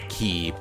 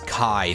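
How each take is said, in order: First: The word rhymes with 'see'. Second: The word rhymes with 'eye'. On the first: "not Ki" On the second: "I usually learned that as being pronounced as Kai"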